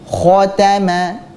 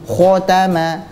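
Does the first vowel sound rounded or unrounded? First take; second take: unrounded; rounded. First: The first vowel is open with unrounded lips. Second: The first vowel is darkened by rounded lips. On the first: The speaker calls it right. "tanpa memonyongkan kedua bibir, hanya dibuka saja" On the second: The speaker calls it wrong. "Contoh bacaan yang salah"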